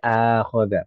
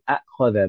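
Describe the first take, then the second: First: It begins with one long vowel, no second stop. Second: It begins with two separate glottal-stopped vowels. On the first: The speaker calls it right. "Jadi akhoda" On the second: The speaker calls it wrong. "bukan akhoda bacanya"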